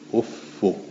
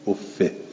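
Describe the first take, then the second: First: The word ends in a short -u sound. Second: The word ends in a short -i sound. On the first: "افو مزمومتون غیر منونه" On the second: "افه بالکس غیر و منون"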